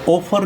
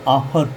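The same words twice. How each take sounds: First: ऑफर as "OH-far", round O; rejected O reading. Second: ऑफर as "AA-far", open aa; open AA reading. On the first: Teacher shows what not to read, ऑफर with an O. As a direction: round the first vowel of ऑफर. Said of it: "ऑफर नहीं पढ़ेंगे". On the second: Teacher shows students the taught reading, ऑफर with open aa. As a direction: open the first vowel of ऑफर to aa. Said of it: "इसको ऑफर पढ़ेंगे". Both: Shown as a demonstration.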